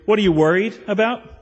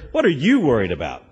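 First: It sounds soothing and reassuring. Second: It sounds critical and accusing.

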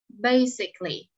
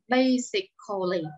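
First: The syllable before -ly is reduced away. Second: The syllable before -ly is fully pronounced. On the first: The speaker calls it right. "Mình giảm âm, mình không phát âm ra" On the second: The speaker calls it wrong. "chúng ta không đọc là basically. Đọc vậy là sai"

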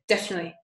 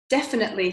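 First: Some syllables of the word are dropped. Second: Every syllable of the word is pronounced.

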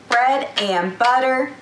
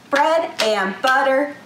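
Both takes have the same delivery.

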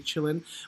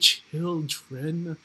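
First: The word is reduced, with a relaxed schwa vowel. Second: Every consonant is fully and crisply articulated. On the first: The speaker calls it right. "a little bit more casual, so you say chillin" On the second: The speaker calls it wrong. "we're not going to sing children"

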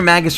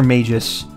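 First: The G is hard, with a short first vowel. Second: The G is soft, like a J sound. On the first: "It's either a hard G" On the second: "a soft G"

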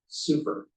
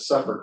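First: It sounds like the word 'super'. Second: It sounds like the word 'supper'. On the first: This is the speaker's own preferred way. "I pronounced it super, um, because it sounds closer to super" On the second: This is how the organization says it. "the tree board calls it a supper grant"

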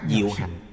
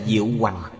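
First: The second word is pronounced hành, without a glide. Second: The second word is pronounced hoành, with a glide. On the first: This is the modern reading. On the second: This is the old reading.

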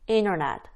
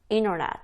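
First: The t sound in the middle is dropped. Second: The t sound in the middle is dropped.

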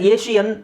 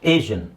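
First: The middle consonant is a sh sound. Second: The middle consonant is a zh sound. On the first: The speaker calls it wrong. "ತುಂಬ ಜನ ಏಷಿಯನ್ ಅಂತ ಹೇಳ್ತಾರೆ" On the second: The speaker calls it right. "Correct pronunciation ... ಈ symbol"

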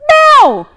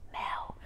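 First: The name is shouted. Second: The name is whispered.

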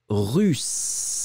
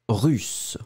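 First: The s sound is held long. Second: The s sound is short. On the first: "On le fait un tout petit peu plus long" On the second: "le raccourci"

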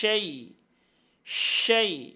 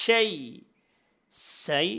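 First: It begins with a hissing 'sh' sound. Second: It begins with a plain 's' sound. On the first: The speaker calls it right. "শিনের উচ্চারণ বাতাস ছড়ায় দিতে হবে" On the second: The speaker calls it wrong. "এরকম বললে হবে না, শিন বলতে হবে"

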